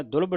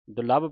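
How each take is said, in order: First: ਦੁਲਭ squashed to "DULbh"; ਦੁਲਭ as "dulbh", the mistaken reading; squeezed second syllable. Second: ਦੁਲੱਭ with a stressed second syllable, "du-LABH"; ਦੁਲੱਭ as "du-labbh", the corrected reading; doubled l. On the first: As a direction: stress the first syllable of ਦੁਲਭ and swallow the a. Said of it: "ਨਹੀਂ ਪੜ੍ਹਨਾ ਇਹਨੂੰ". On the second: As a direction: give ਦੁਲੱਭ a full a after the l. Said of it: "ਪੜ੍ਹਨਾ". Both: Shown as a demonstration.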